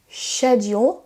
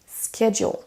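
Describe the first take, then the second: First: The word begins with a sh sound. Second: The word does not begin with a sh sound.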